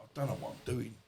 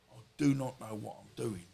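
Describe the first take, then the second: First: Said in the usual way. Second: "do not" spelled out in full, weighted; stress on DO NOT. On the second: Retold or imitated. Man retelling his moment at his friend's, stressing "do not". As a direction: lean on "do not", each word separate.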